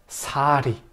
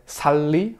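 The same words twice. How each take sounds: First: SARI with a tapped r; slow, linked Korean "sari"; linked version. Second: SALI with a full l; Spanish reading "sal-li"; unlinked wrong version. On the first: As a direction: stretch "sa", then a light "ri". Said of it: "se enlaza". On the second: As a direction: hold the l in "sali". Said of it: "en lugar de sali". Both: Shown as a demonstration.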